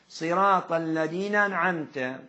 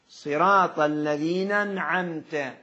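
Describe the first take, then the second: The two takes are said the same way.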